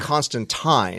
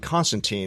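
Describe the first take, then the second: First: The last syllable does not sound like 'teen'. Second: The last syllable sounds like 'teen'. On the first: This is the pretentious, supposedly correct way. The speaker calls it right. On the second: This is how Americans say the name. The speaker calls it wrong.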